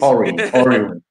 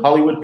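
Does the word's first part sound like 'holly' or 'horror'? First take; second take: horror; holly. First: The first part sounds like 'horror'. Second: The first part sounds like 'holly'. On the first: "Like a horror movie" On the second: "Instead of Hollywood"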